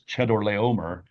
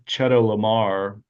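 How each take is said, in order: First: Every syllable of the name is pronounced. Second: Some syllables of the name are left out. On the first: The speaker calls it right. "I guess you got to do all the syllables" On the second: The speaker calls it wrong. "I didn't say that right"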